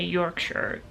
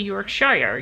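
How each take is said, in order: First: The last syllable is a reduced 'sher'. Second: The last syllable is a full 'shire'. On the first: The speaker calls it right. "you say" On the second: The speaker calls it wrong. "You don't say"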